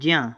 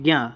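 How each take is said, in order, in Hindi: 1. यह अक्षर अपने अक्षरों के मेल से बोला जाता है। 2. यह अक्षर अपने अक्षरों के मेल से अलग तरह से बोला जाता है। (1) "वैसे होना चाहिए ज्ञा" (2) "लेकिन कहते हैं ज्ञा"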